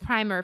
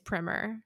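First: The word is said the British way. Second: The word is said the American way. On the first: "and the British is primer for both" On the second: "apparently the American pronunciation is primer"

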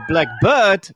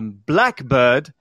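First: The stress falls on bird. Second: The stress falls on black. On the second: It is a particular species of bird.

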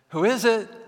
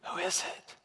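First: It is called out a little louder. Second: It is sleepily whispered.

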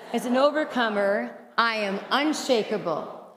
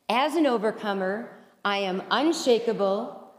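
First: It is said loudly with great energy. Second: It is said at a calm, ordinary energy.

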